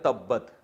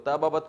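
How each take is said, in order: First: Two b sounds merge into one doubled b. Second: Two b sounds are separated by a vowel. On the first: "बना दिया तब्बत" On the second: "दो हर्फ एक जैसे आ गए"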